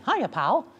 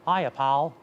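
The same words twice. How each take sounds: First: The voice is a middle-range falsetto. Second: The voice is pitched too low. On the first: The speaker calls it right. "here's Mickey" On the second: The speaker calls it wrong. "If I go too low"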